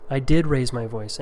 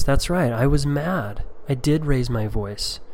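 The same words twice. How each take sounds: First: Said in the usual way. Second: Slow reassuring father. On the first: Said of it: "So I'm owning it". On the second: Shown as a demonstration. Father owning his anger to his tearful child, slow and tender. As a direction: admit it gently and slowly. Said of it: "here's an example of what I say to my children".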